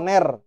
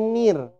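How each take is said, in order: First: The vowel sounds like e in ner. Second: The vowel sounds like i in nir. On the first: The speaker calls it wrong. "bukan ner" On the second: The speaker calls it right. "tapi nir"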